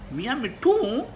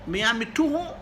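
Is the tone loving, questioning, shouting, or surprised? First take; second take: surprised; questioning. First: It is said with great astonishment. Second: It is said with a questioning tone. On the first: "बड़ी हैरानी के साथ" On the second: "इस मरतबा लहजा सवाल लिया होता"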